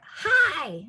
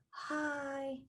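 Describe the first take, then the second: First: The word is shouted loudly and forcefully. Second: The word is said weakly with a shaky voice. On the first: "It's like shouting" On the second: "It's very wobbly and wimpy"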